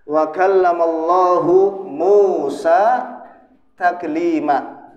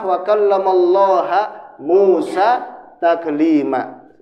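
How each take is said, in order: First: The word Allah ends with a 'u' vowel. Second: The word Allah ends with an 'a' vowel. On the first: God is the one who speaks to Moses. The speaker calls it right. "Ini harokannya apa? Dhammah" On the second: Moses is the one who speaks to God. The speaker calls it wrong. "Kalau ya menjadi fathah"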